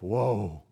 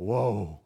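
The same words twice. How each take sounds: First: It is said with pained, grieving sorrow. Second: The same.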